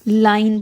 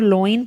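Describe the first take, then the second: First: The first vowel sounds like 'eye'. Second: The first vowel sounds like 'oh'. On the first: The speaker calls it right. "उसको हम लाइन पढ़ते हैं" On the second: The speaker calls it wrong. "लोइन पढ़ते हैं वो गलत pronunciation है"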